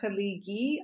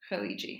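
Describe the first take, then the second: First: The consonant before the last vowel is a hard G. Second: The consonant before the last vowel is a J sound. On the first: This is how it is said in Egypt. "they don't pronounce the J sound. They do hard Gs" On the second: This is how it is said in the Gulf region. "in the Haliji region, they say Haliji"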